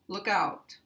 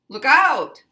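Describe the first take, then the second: First: It is said plainly without extra emphasis. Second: It is said loudly with strong emphasis. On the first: "normally it would just be pronounced" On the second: "sometimes people might put emphasis on it"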